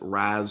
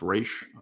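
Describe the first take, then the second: First: The name is said sounding like 'Raz'. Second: The name is said sounding like 'Raish'. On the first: This is a common popular pronunciation. "some people pronounce it Raz Al Ghul" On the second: This is the official pronunciation. "It is pronounced Raish officially"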